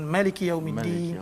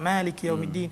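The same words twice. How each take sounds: First: The first vowel of Maliki is kept short. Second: The first vowel of Maliki is held long. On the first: "Ada qiraat yang baca dengan" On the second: "baca dengan panjang dua harakat"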